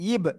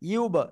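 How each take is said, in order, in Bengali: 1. স্বরধ্বনিটি একটি অ-ওষ্ঠ্য 'ee'-সদৃশ ধ্বনি। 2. স্বরধ্বনিটি একটি ওষ্ঠ্য 'oo'-সদৃশ ধ্বনি। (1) "অনেকে বলে কি ইব, ... একটু জেরের একটা ভাব চলে আসছে" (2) "এই যে দুই ঠোঁট গোল হবে"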